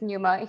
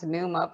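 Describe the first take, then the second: First: The name is said the Zambian way. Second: The name is said the American way. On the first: This is the form used at home. "In Zambia, it's Numa" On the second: This is the form that is easier for people abroad. "Here in the United States, where I live, it becomes Numa because it's just easier"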